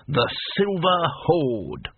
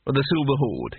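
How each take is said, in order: First: Put-on slow, lightly proud old barbarian; proud naming. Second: Said in the usual way. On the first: A narrator's reading. Cohen repeating his band's name to Rincewind with slow pride. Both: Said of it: "with a touch of pride".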